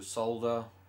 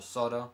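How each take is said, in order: First: It is said in a non-American accent. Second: It is said in an American accent.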